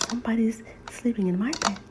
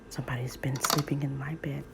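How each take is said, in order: First: It is said in a small, squeaky voice. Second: It is said in a deep, growly voice.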